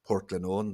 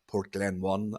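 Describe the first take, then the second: First: The name is said the local Northern Irish way. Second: The name is said the English newsreader way. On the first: The speaker calls it right. "they don't say" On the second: The speaker calls it wrong. "they say"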